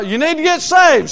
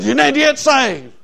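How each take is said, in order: First: Higher-pitched, insistent soul-winning plea; raised-pitch preacher's warning; urgent preaching. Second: Imitating a woman parroting the preacher; higher-pitched parroted preaching; copycat echo. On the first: Retold or imitated. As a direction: press it on them like a street preacher. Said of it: "I got there and I said". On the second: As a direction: mimic the warning back, pitched up. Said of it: "everything I'd say, she'd copy me".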